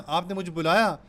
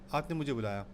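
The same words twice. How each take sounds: First: It is said as a question, rising. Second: It is said as a statement, falling.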